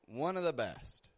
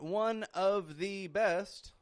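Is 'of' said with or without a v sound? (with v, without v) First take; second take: without v; with v. First: The word of is reduced to a schwa. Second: The word of is said fully with v. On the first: The speaker calls it right. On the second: The speaker calls it wrong.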